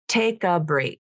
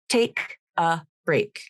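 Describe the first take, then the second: First: The final consonant joins onto the next word. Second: The words are said separately, without linking. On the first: "Now with linking" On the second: "I'll read the phrase without linking"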